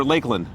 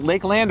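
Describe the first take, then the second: First: Lakeland said as "LAKE-lund"; reduced second syllable. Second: Lakeland with a full "land", vowel as in "hand"; full "land" pronunciation. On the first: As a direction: swallow the vowel in the end of Lakeland. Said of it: "You just say Lakeland". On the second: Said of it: "You don't really pronounce the land part". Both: Shown as a demonstration.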